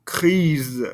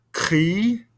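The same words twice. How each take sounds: First: "crise" ending in a buzzing Z sound; "crise" with the final consonant sounded; feminine grise. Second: "Cri" ending on the vowel, no S sound; "Cri" with a silent final S; masculine gris. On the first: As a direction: say "crise" and finish with a Z. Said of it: "but I do over here". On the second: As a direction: say "Cri" and drop the S. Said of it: "I don't hear that S sound here". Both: Shown as a demonstration.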